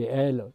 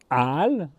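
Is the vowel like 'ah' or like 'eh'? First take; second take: eh; ah. First: The vowel sounds like 'eh'. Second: The vowel sounds like 'ah'. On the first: The speaker calls it wrong. "on peut le prononcer El par habitude" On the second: The speaker calls it right. "il vaudrait mieux le dire Al"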